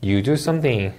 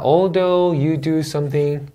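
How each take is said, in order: First: "You do something." falling to close; falling tune. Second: Slow "although you do something" lifting at the end; rising tune. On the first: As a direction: drop the pitch on something. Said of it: "끝났으니까 내려 읽는 겁니다". (끝을 내려 읽기) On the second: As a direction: leave it hanging upward. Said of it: "올려 읽고요". (끝을 올려 읽기) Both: Shown as a demonstration.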